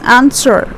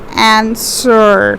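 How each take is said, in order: First: It is said quickly with the second syllable unstressed. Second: It is said with stress on the second syllable. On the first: The speaker calls it right. "we are quickly saying this answer" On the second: The speaker calls it wrong. "We're not pronouncing it as answer"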